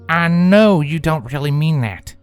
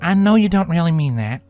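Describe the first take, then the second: First: It is said in a stern tone. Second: It is said in a hopeful tone.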